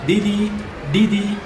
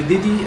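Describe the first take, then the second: First: "didi" with the pupil's substituted D sounds; student's mispronunciation. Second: "didi" with standard Nepali D sounds; corrected pronunciation. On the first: Retold or imitated. Teacher showing a boy's error, mistaken D in "didi". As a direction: imitate the boy's off-target "didi", slightly emphatic. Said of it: "he is pronouncing". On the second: Shown as a demonstration. Teacher correcting a boy's word, standard D in "didi". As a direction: model the proper Nepali "didi". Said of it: "that should be".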